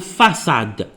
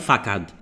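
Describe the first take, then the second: First: The middle consonant is a soft S sound. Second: The middle consonant is a hard K sound. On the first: The speaker calls it right. "كاينه فاساد" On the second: The speaker calls it wrong. "فاكاد ما كاينش حاجه سميتها فاكاد"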